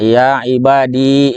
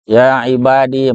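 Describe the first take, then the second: First: The final vowel is said long. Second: The final vowel is said short. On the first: "dengan panjang" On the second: "berarti pendek"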